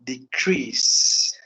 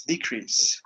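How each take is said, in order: First: Decrease said as a verb, stress on the second syllable, de-CREASE. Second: Decrease said as a noun, stress on the first syllable, DE-crease. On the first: Teacher modelling the verb decrease for students, stress on CREASE. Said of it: "as a verb, we have to say like this". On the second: Teacher modelling the noun decrease for students, stress on DE. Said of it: "we have to say like decrease, like this". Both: Shown as a demonstration.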